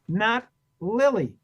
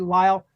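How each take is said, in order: First: The name is two syllables, like lily. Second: The name is one syllable, rhyming with smile. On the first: The speaker calls it wrong. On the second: The speaker calls it right. "rhymes with smile"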